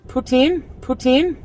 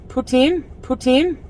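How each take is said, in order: No difference in how they are said.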